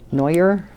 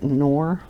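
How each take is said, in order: First: It is said following the spelling. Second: It is said as one short syllable. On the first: The speaker calls it wrong. "That's how it's spelt" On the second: The speaker calls it right. "I think it's Nor"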